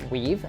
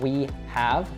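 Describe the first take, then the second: First: The two words merge into one contracted syllable. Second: Both words are said fully and separately. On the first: "as contraction" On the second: "both those words really separated"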